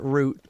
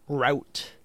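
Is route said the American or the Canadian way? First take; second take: Canadian; American. First: Route is said with a Canadian pronunciation. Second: Route is said with an American pronunciation. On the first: "I'm such a Canadian, I've always pronounced it route" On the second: "you pronounce route like such an American"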